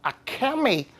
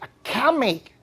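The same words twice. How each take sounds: Both takes have the same delivery.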